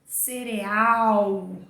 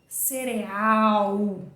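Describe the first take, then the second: The two takes are said the same way.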